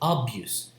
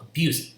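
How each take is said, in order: First: The first vowel is a full vowel. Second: The first vowel is a reduced schwa. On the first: The speaker calls it wrong. "it's not abuse" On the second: The speaker calls it right. "the first syllable will have the um, vowel this, the flipped e"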